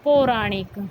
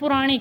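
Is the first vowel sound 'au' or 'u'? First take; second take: au; u. First: The first vowel is an 'au' sound. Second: The first vowel is a short 'u' sound. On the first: The speaker calls it right. "उसका शुद्ध रूप क्या होता है" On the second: The speaker calls it wrong. "एक पुराणिक बोलते हैं"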